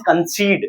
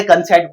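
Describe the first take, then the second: First: "concede" with a long "ee"; correct pronunciation. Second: "कंसेप्ट" with a short "e" second vowel; common mispronunciation. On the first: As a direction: say "concede" as "kun-SEED". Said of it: "this is not a concept". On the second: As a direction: misread concede as "kun-SET". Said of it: "बहुत से इसे कंसेप्ट पढ़ते हैं". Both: Shown as a demonstration.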